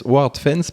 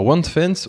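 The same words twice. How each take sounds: First: WordFence re-said as "Ward-fence", French-accented; French-accented WordFence, R restored in "ward"; corrected WordFence, French accent. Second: WordFence slipped out as "Wand-fence"; fumbled WordFence, first syllable sounding like "wand"; mispronounced WordFence. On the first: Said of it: "avec mon accent magnifique en anglais". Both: Real, not acted.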